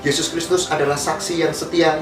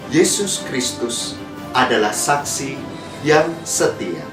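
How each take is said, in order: First: It is read quickly, words running together. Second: It is read slowly, each word clearly articulated. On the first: The message will not reach the listeners' hearts. The speaker calls it wrong. "Jangan sampai para pembaca itu membaca dengan cepat" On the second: The listeners can hear and take in the message. The speaker calls it right. "Nampak suara jelas sehingga orang mendengar"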